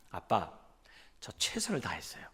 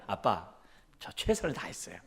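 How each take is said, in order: First: Small, quiet sheepish voice; mumbled excuse. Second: Said in the usual way. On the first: Retold or imitated. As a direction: mumble it like a cornered son. 아들의 변명을 흉내 냄. (기어들어가는 목소리로 아들 흉내)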